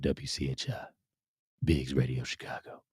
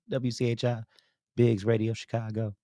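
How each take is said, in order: First: It is said in a deeper voice. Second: It is said in a normal voice.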